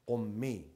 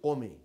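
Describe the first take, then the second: First: The m sound is held long, doubled. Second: The m sound is short, single. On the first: "don't say Qummi" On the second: "say Qumi. They don't put this shadda"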